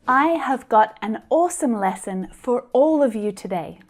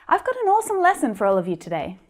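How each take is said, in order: First: Every word is said fully and separately, robot-like. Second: Words are contracted, reduced and linked smoothly together. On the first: The speaker calls it wrong. "a little awkward. Very clear, but a little like a robot" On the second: The speaker calls it right. "The first time, really naturally, just like I'd say it to my friends"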